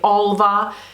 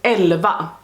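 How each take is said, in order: First: The first vowel is an open 'ah' sound. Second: The first vowel is an 'eh' sound. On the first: This is how Americans say the name. The speaker calls it wrong. "all of you Americans say Alva" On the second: This is the name's Swedish pronunciation. The speaker calls it right. "it's Elva, because this is not an A, this is an Ä"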